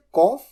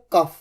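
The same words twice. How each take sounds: First: कॉफ with an open aw vowel, like off; cough as kawf. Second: कफ with a short uh vowel, like cuff; cough as kuff. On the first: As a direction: say कॉफ with a long rounded aw. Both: Shown as a demonstration. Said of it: "दोनों तरीके से बोला जाता है".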